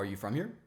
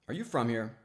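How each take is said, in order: First: It sounds flat and neutral, a plain question. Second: It sounds doubtful and skeptical, with suggestive emphasis. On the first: It simply asks for information. The speaker calls it wrong. "the first one is boring. It's just a, a logical question" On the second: It implies she might not fit in here. The speaker calls it right. "It's kind of skeptical"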